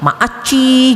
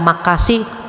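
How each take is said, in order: First: It is said in a lisping, breathy, cutesy voice. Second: It is said in a plain, normal voice.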